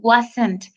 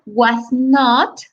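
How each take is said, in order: First: It is said as one shortened contracted word. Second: It is said as two full separate words.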